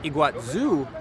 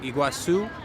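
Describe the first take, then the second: First: The last consonant is a buzzing Z sound. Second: The last consonant is a hissing S sound. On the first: This is how it is said in Argentina. "Apparently in Argentina, they pronounce it more like Iguazu" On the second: This is how it is said in Brazil. "here in Brazil, it tends to be like a S sound"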